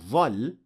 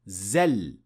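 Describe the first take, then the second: First: It starts with an emphatic th-like sound. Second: It starts with a plain z sound. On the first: "as it is mispronounced by some Arabs" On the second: "they would end up saying زل"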